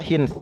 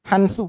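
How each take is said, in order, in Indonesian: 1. Vokal pertamanya 'i'. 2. Vokal pertamanya 'a'. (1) "bisa juga dibaca hins ya, boleh juga"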